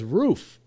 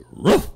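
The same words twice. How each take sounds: First: Lighter, raised bark on Roof; imitated dog bark. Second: Short rising woof of a word; talking dog bark. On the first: Doubting bartender mimics the dog, imitated bark. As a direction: mimic the dog's rising bark. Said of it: "That's the way a dog barks". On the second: Acted. Dog in a joke answers its owner, barking. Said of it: "And the dog goes".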